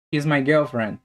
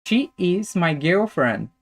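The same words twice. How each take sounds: First: Said in the usual way. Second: Slow, evenly separated words; slow careful model. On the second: Shown as a demonstration. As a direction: model each word slowly for learners. Teacher models example slowly, then connected.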